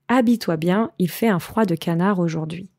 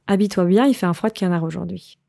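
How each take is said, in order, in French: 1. La phrase est prononcée plus lentement. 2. La phrase est prononcée plus rapidement.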